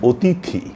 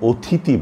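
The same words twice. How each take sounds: First: অতিথি high and clear, plain ত then aspirated থি at the end; correct pronunciation. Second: অতিথি said as ওথিতি, the থ moved to the front; wrong pronunciation. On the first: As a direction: lift অতিথি and keep the থ last. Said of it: "আমরা বলবো". (শুদ্ধ উচ্চারণ: অতিথি) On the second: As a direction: put the aspirated থ first in অতিথি. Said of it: "এ শব্দটির উচ্চারণ অনেকেরই ভুল হয়". (ভুল উচ্চারণ: ওথিতি) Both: Shown as a demonstration.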